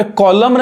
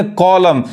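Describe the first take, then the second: First: कॉलम with the final n sounded; कॉलम misread with an n after m; wrong pronunciation. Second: कॉलम ending on m, "kol-um"; silent N. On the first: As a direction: say कॉलम as "kol-um-n". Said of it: "नहीं कहेंगे हम". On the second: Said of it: "एन क्या है". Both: Shown as a demonstration.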